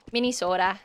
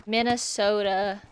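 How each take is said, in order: First: Minnesota accent. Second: Said in the usual way. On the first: Shown as a demonstration. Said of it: "I love saying it like that too". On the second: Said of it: "I love saying Minnesota".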